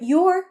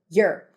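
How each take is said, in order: First: The word is full and clearly stressed. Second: The word is weak and reduced, unstressed. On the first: "But she is stressing it" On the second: "when it's unstressed, is usually pronounced as you're"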